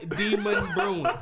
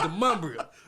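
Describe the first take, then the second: First: It sounds like the two words demon brewing. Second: It sounds like duh-MUM-bree-un, one run-together word. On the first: This is how a navigation voice reads it. The speaker calls it wrong. "It's not Demon Brewing" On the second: This is how local people say it. The speaker calls it right. "It's the Mumbria"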